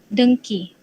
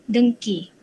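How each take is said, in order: Both takes have the same delivery.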